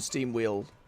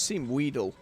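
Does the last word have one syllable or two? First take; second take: one; two. First: The last word has one syllable. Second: The last word has two syllables. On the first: The speaker calls it wrong. "I've said it wrong this whole time" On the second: The speaker calls it right. "it's steam wheedle rather than steam wheel"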